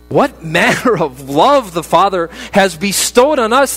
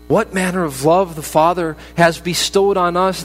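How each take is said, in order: First: It is read louder, like an exclamation. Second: It is read at a quieter, even level. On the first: It is an exclamation of wonder. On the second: It is a plain statement.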